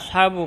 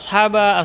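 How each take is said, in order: First: The word ends with a u vowel. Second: The word ends with an a vowel. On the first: "Tidak boleh dibaca" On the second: "Tidak boleh dibaca ashaba"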